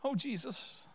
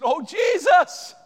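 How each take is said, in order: First: Said in the usual way. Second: High, drawn-out shout of appeal; loud, anguished call; desperate cry. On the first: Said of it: "Do you think that mother said". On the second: Acted. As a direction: cry out as a pleading mother. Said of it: "I think she said".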